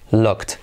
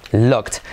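Both takes have the same delivery.

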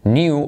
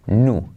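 First: "Knew" as "nyoo", silent K; "Knew" said "niu"; Y-glide variant. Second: "knew" as "noo", silent K; no Y glide. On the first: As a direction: put a Y glide after the N in "Knew". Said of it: "o también se puede decir". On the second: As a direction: go straight from N to oo in "knew". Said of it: "o también se puede decir knew". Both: Shown as a demonstration.

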